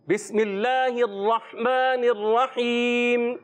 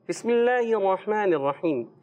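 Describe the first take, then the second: First: The words are recited clearly, not through the nose. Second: The words are recited through the nose. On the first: The speaker calls it right. "کلیئر کر" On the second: The speaker calls it wrong. "سارا ناک سے پڑھیں. کیسے؟ ... ایسے نہیں"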